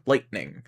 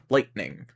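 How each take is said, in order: First: The T is pronounced as a glottal stop. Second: The T is pronounced as a glottal stop.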